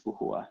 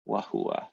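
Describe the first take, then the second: First: "uhua" starting with a U vowel; vowel pronunciation. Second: "wahua" with a W start; W pronunciation. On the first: Teacher gives the other speakers' "uhua" with U. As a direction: say "uhua" opening on U, no W. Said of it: "other people who would say this". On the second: Teacher repeats the student's "wahua" with W. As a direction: say "wahua" beginning with a W glide. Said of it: "So I think you said". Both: Shown as a demonstration.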